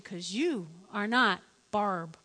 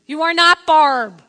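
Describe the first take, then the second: First: Slow, spaced-out "you are not Barb"; deliberate, low-key put-down; measured refusal. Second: Loud, slow "you are NOT Barb"; retold exasperated shout; forceful refusal. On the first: Retold or imitated. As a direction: let "Barb" fall, slowly and softly. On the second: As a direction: hammer each word at full volume. Refusal escalated.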